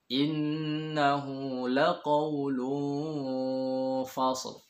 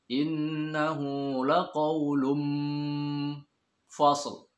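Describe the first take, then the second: First: The lips stay slightly open on the nasal. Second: The lips close fully for an m before f. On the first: The speaker calls it right. "Yang benar ... bibir atas dan bawah ini tidak rapat" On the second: The speaker calls it wrong. "Kalau m asli ... Itu juga keliru"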